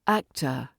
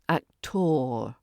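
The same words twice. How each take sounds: First: The ending is a relaxed uh sound. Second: The ending is a strong hard R sound. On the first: The speaker calls it right. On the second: The speaker calls it wrong.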